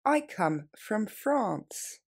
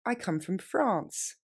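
First: Very slow, every word separate. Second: Slow and clear; slow model phrase. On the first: Teacher repeating the answer even more slowly. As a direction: drag it out word by word. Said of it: "Plus lentement". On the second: Teacher modelling an answer slowly. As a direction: say it slowly for learners. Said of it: "Je viens de France". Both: Shown as a demonstration.

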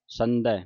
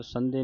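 First: ਸੰਧੈ ending in an open ai; ਸੰਧੈ with a wide final vowel; correct final ai. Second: ਸੰਧੇ ending in a close e; ਸੰਧੇ with a narrow final vowel; mistaken final e. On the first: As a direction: say ਸੰਧੈ as san-dhai, like eh. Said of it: "ਸੰਧੈ ਦਲਾਵਾਂ ਦੇ ਨਾਲ". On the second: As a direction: say ਸੰਧੇ as san-dhay. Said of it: "ਸੰਧੇ ਨਹੀਂ ਕਹਿ ਦੇਣਾ". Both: Shown as a demonstration.

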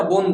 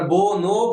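First: "বোন" as one closed syllable, bon; ব্যঞ্জনান্ত উচ্চারণ. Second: "বোনও" as two open syllables, bo-no, each ending in an o; স্বরান্ত উচ্চারণ. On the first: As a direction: stop "বোন" on the n, no vowel after it. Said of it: "এখানে কিন্তু আর অ উচ্চারিত হলো না". ("বোন" শেষে স্বর ছাড়া, ন-এ থেমে বলা) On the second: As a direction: draw "বোনও" out slowly as bo, no. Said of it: "বোনও বলি না, বোন বলি". ("বোনও" শেষে ও-স্বর দিয়ে বো-নো বলা) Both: Shown as a demonstration.

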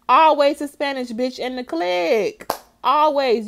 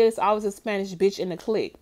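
First: Higher and louder, hammering the point home; loud emphatic repeat. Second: Said in the usual way. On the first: Real, not acted. Host repeating her point to co-host, louder and higher. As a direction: punch it out like it's settled fact.

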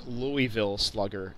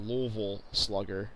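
First: Slow, careful "Louisville" with an ee in the middle. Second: Slow "Louisville" with the middle ee dropped. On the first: Citing [name]'s song, "Louisville" pronounced LOO-ee-vil. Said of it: "she says Louisville Slugger, not Louisville Slugger". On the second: Rejecting the local way, "Louisville" pronounced LUH-vul. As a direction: swallow "Louisville" into two syllables, LUH-vul. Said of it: "not Louisville Slugger". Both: Shown as a demonstration.

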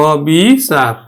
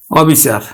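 First: অবিচার stretched as অ-বি... চার; slow, split অবিচার for learners; open vowel, syllabified. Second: Said in the usual way. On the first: Shown as a demonstration. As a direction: draw out অ and বি, then চার in অবিচার. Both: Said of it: "অবিচারেই উচ্চারিত হবে".

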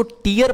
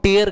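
First: टीयर said as teer, long ee like tears; the mistaken टीयर, teer with a long ee; wrong reading. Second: टेयर said as tair, rhyming with care; the right टेयर, open tair sound; correct pronunciation. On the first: Teacher showing students the wrong reading: टीयर as teer. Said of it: "अगर कोई लोग इसको टीयर पढ़ते हैं". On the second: Teacher giving students the right form: टेयर as tair. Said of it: "इसका जो हम उच्चारण करते हैं". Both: Shown as a demonstration.

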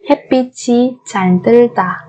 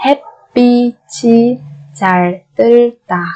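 First: Said in the usual way. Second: Syllable by syllable. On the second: Shown as a demonstration. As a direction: sound out 햇빛이 잘 들다 piece by piece. Slow syllable-by-syllable model. (đọc 햇빛이 잘 들다 chậm từng âm tiết)

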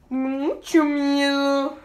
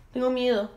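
First: Very slow, stretched mucho miedo; drawn out fear. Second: Said in the usual way. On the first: Pretend. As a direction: drag it out like a scared kid. (miedo exagerado y muy lento)

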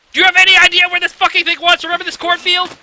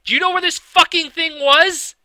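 First: High, loud, fast furious question; exasperated yell. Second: Said in the usual way. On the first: Real, not acted. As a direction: blow up at the viewer in disbelief. Repeated question, louder, exasperated.

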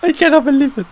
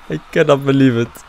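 First: Very high squeal of disbelief. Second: Said in the usual way. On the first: Real, not acted. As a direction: squeal it in shock. After the win.

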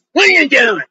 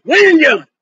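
First: Raised, pinched little-lady voice; little lady's challenge. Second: Louder, higher, indignant repeat of the question; lady demanding. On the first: Little lady confronting a street preacher, raised put-on voice. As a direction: play the nosy little lady questioning him. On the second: Little lady confronting the preacher, louder and higher. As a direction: snap the question back at him, higher and louder. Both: Retold or imitated. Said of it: "This little lady".

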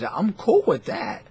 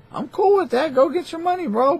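First: Said in the usual way. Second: Much higher, lightly louder cheery tone; mock sing-song. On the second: Telling gamblers to go get their money, high mock cheer. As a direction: toss it off high and breezy. Repeats line in a new voice.

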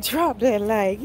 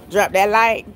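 First: Each word of DROP THAT LIKE stretched slowly; drawn-out quote. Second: Said in the usual way. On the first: Retold or imitated. Repeating a viewer's comment to the stream, drawn out. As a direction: read it back slowly, stretching the words.

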